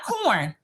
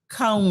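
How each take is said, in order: First: The word is said with a clear r sound. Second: The word is said without the r sound. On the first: This is not how people there say it. "not corn" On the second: This is how people in the country say it. "we don't call it moonshine here in the country. It's cone liquor"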